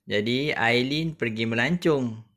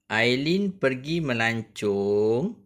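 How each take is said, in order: First: Said in the usual way. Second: Slow, careful reading of the sentence; measured textbook reading; reading aloud to pupils. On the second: Shown as a demonstration. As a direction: read it slowly like a model for the class.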